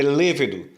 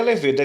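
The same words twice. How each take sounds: First: Lêvedo stressed on the first syllable, LÊ-ve-do; lêvedo as a proparoxytone, LÊ-ve-do; correct stress. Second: Levedo with the stress on the middle, le-VE-do; wrong stress. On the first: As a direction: put the weight on LÊ in lêvedo. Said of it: "é lêvedo". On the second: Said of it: "A palavra não é levedo". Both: Shown as a demonstration.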